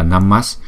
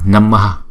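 First: The word ends in a plain s sound. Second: The word ends in an extra ha syllable. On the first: The word is joined to the following words of the mantra. "nhưng mà chúng ta phải đọc là Namas" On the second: The word stands on its own. "Nếu mà đứng một mình chữ này á, thì chúng ta đọc là Namaha"

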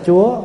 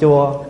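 First: The syllable is said on a high rising tone. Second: The syllable is said on a low falling tone. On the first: It means the Lord. "mà ai nhận dấu sắc là Chúa" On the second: It means a temple. "Con nhận dấu huyền là con thành chùa"

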